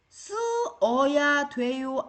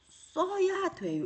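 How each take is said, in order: First: The verb's two vowels are said as separate syllables. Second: The verb's two vowels merge into one syllable. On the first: The speaker calls it wrong. "쓰어야 돼요 아니고" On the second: The speaker calls it right. "써야 돼요 이렇게 말해요"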